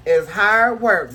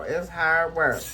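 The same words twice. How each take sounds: First: "hard" drawn out slow and loud; stress on hard. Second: Said in the usual way. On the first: Shown as a demonstration.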